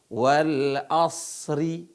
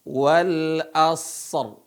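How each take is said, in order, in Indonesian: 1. Kata ini berakhir dengan vokal i pendek. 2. Kata ini berakhir pada huruf r tanpa vokal. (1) "Bukan dibaca wal asri" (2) "Wal asr. Ya"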